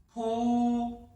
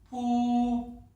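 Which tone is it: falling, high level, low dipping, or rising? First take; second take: high level; high level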